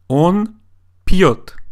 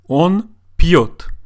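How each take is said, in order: The two takes are said the same way.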